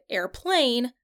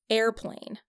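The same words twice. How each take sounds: First: The stress falls on the second syllable. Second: The stress falls on the first syllable. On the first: The speaker calls it wrong. "that would sound really weird because the stress is wrong" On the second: The speaker calls it right. "the air is the stressed syllable, and plane is the unstressed syllable"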